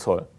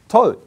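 First: It is said in a flat, disappointed tone. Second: It is said in a bright, pleased tone. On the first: The news is unwelcome. The speaker calls it wrong. "sei nicht irgendwie enttäuscht" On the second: The news is welcome. The speaker calls it right. "freu dich doch darüber"

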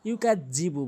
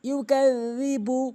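First: The consonant after 'ka' sounds like 'j'. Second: The consonant after 'ka' sounds like 'dh'. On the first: The speaker calls it wrong. "অধিকাংশ লোক ইউকাজিবু বলে" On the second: The speaker calls it right. "বলতে হবে ইউকাজি"

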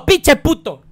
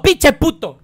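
First: It is said with a native Spanish accent. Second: It is said with a native Spanish accent.

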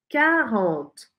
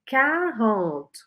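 Both takes have the same delivery.

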